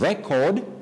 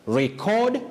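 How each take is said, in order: First: The stress is on the first syllable. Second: The stress is on the second syllable. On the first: It names a thing. "that is the noun" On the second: It names an action. "that is the verb"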